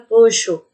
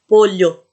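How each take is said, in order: First: The double L sounds like 'sh'. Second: The double L sounds like a palatal 'ly'. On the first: This is how it is said in Argentina. "se for pronunciar na Argentina" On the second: This is how it is said in Spain. "na Espanha... Tá vendo que tem o som de L H?"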